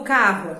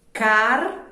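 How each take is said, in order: First: Said in the usual way. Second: "carro" split as car... ro, louder; "carro" with a long pause after car; syllable by syllable. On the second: Shown as a demonstration. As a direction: separate the two R's in "carro". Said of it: "O C A R de um lado".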